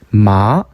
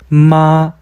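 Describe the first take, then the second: First: It is said with the second tone. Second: It is said with the first tone. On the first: It means a hemp plant. "산마, 식물이죠" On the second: It means mother. "어머니"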